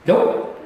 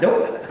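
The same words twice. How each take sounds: First: A flat, firm Nope; blunt refusal. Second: Nope repeated bluntly, no hesitation; straight out. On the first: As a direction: shut the offer down in one word. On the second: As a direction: drop it like a closed door. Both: Retold or imitated. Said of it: "Straight out".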